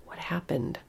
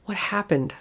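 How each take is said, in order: First: Quiet dread. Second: Pleading. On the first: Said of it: "fearful thought, sinking dread". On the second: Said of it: "I pleaded". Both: Acted.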